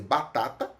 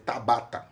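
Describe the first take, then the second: First: Batata said normally as ba-TA-ta; the word batata said with its syllables in order; correct word. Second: Tabata said with the first two syllables of batata swapped. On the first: Teacher gives the correct word before the swapped one, plain. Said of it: "eu posso dizer tabata". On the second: Teacher demonstrates an apraxia slip, plain voice. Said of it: "se eu vou dizer batata". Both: Shown as a demonstration.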